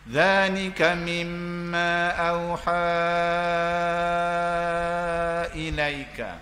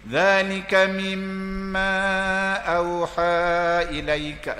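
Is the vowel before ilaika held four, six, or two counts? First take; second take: six counts; two counts. First: The long vowel is held for six counts. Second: The long vowel is held for two counts. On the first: "Saya baca enam" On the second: "Saya baca dua"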